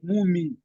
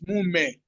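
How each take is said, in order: First: The word ends in an 'ee' vowel. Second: The word ends in an 'eh' vowel. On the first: The speaker calls it wrong. "Don't say it like mumi" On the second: The speaker calls it right. "It's mume"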